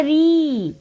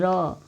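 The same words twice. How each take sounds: First: री held long and high; sound री. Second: र with a short open vowel, no ee; sound र. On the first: Teacher naming the sign for learners, long री. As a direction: draw out री with a long ee vowel. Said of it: "इसको बोलते हैं री". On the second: Teacher naming the other sign, short open र. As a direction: say र short and low-key. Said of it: "इसको बोलते हैं र". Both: Shown as a demonstration.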